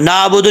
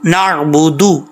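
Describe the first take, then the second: First: The vowel follows the n with no throat sound. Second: A clear throat sound follows the first vowel. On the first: The speaker calls it wrong. "नाबुदु नहीं पढ़ना" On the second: The speaker calls it right. "आइन को क्लियर करना है"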